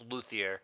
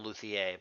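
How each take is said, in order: First: The name is said with an American pronunciation. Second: The name is said with a French pronunciation. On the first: The speaker calls it right. "I think it's Luthier" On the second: The speaker calls it wrong. "I don't think it has a French accent on it"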